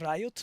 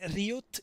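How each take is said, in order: First: The word is said with English vowels and sounds. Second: The word is said with Italian vowels and sounds. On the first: The speaker calls it right. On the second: The speaker calls it wrong.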